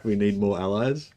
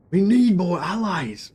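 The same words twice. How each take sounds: First: Said in the usual way. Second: A half-hearted Jon Snow, pitched higher and slow; a quick failed stab at a brooding northern hero. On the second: Retold or imitated. Streamer tries Jon Snow for chat, gives up. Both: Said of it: "I can't do the Jon Snow voice".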